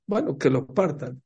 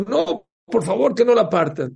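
First: Casual, unbothered go-ahead; indifferent consent. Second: High, loud begging; mock desperate plea. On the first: Retold or imitated. Mother-in-law letting them split the groom, indifferent. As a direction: agree as if it costs nothing. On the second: Mother-in-law begging the king to spare him, desperate. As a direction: beg urgently, voice leaping up.

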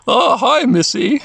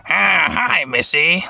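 First: High creature voice; English-dub Numemon. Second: Breathier creature greeting, less high; imitated Japanese voice actor. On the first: Acted. Numemon greets Mimi from vending machine, creature voice. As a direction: greet her as a high-voiced little monster. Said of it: "I like the Numemon voice in the English". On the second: Podcaster shows listeners the Japanese Numemon voice, imitating. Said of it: "hear their Japanese voice actor going".

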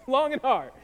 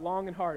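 First: Long and hard, louder through a laugh; amused, emphatic. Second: Said in the usual way. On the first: Real, not acted. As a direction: laugh while punching the repeated phrase. Repeats own phrase for a laugh.

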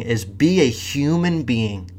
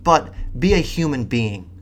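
First: "be a human being" slow, each word weighted; title stress. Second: Said in the usual way. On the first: Real, not acted. Naming the video's title to viewers, slow and weighted. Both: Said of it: "That's the title of this fucking thing".

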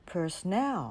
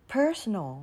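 First: Personnel with the final NEL stressed and drawn out; stress on last syllable. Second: PERsonal, first syllable stressed and falling away. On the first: Teacher showing learners the word, "personnel" stressed on NEL. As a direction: land the weight on NEL in "personnel". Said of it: "เราจะเน้นในพยางค์ที่สาม ตรง N E L". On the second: Teacher showing learners the word, "personal" stressed on PER. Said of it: "เราจะเน้นเสียงที่ อ่า พยางค์แรก". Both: Shown as a demonstration.

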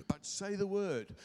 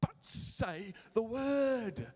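First: Said in the usual way. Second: "But say the word" drawn out slow with weight on "word"; slow emphatic. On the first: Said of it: "repeat of key verse". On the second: Shown as a demonstration. Preacher driving home the verse to the congregation, slow and stressed. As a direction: spell it out slowly, word by word. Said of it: "preacher stresses the key verse".

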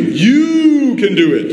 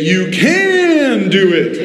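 First: YOU stretched long, high and rising-falling; stress on YOU. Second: CAN drawn out long and high; stress on CAN. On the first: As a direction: lean hard and long on YOU. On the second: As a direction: stretch CAN way out, pitched up. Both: Shown as a demonstration. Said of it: "Now emphasize the word you".

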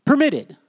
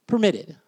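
First: Permitted said louder and higher, with a falling finish; emphatic answer. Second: Said in the usual way. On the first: Shown as a demonstration. Preacher to the congregation revealing the Greek word, punched Permitted. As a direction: announce Permitted like the winning answer.

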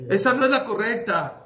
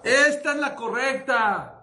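First: "Esa no es la correcta" with weight on "la", higher, falling at the end; stressed contrast. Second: "esta" punched high and drawn out, slow "esta es la correcta"; stressed contrast. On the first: Pharmacist telling the mother which medicine is wrong, firm stress. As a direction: press "Esa no es la correcta" firmly, pitch up, falling close. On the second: Pharmacist showing the right medicine, slow emphatic stress on "esta". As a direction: lean hard on "esta", higher and slower, falling end. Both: Retold or imitated.

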